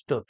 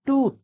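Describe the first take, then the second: First: "tooth" with a wrongly shortened vowel; mispronounced tooth. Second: "tooth" with a long oo vowel; high, falling "tooth" with the full oo sound; correct tooth. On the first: Teacher showing how the word is not pronounced, "tooth" with too short a vowel. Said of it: "This word is not pronounced as". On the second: Teacher giving learners the correct pronunciation, "tooth" with long oo. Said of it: "It is pronounced as". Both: Shown as a demonstration.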